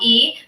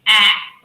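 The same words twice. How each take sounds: First: It is said like the letter's name. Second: It is said as a short vowel sound. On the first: The speaker calls it wrong. "but actually it is not A" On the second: The speaker calls it right. "The sound is A"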